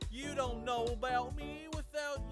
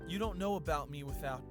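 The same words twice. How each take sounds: First: It is said in an exaggerated southern accent. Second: It is said in the reader's ordinary accent.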